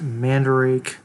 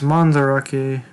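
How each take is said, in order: First: The name is pronounced with English-sounding vowels. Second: The name is pronounced with Japanese-sounding vowels. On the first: The speaker calls it wrong. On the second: The speaker calls it right. "So it's Mandarake"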